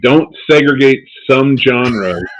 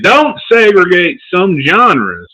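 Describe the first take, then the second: First: It is said in the speaker's normal accent. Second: It is said in a put-on accent. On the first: The speaker calls it wrong. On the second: The speaker calls it right.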